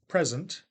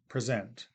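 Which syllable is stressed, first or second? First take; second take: first; second. First: The stress is on the first syllable. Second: The stress is on the second syllable. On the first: It is used as a noun. "the noun uh, present ... high tick mark before the P" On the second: It is used as a verb. "the verb present ... before the Z character"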